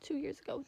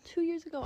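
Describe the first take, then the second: First: Said in the usual way. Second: "Two years ago" said higher and louder, leaning on "Two"; emphatic correction. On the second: Real, not acted. Correcting herself to viewers, stress on "Two".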